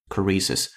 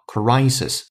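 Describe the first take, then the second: First: The first vowel is a short plain vowel. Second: The first vowel is a gliding diphthong. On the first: The speaker calls it wrong. "not crisis" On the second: The speaker calls it right. "它是双元音I，于是叫crisis"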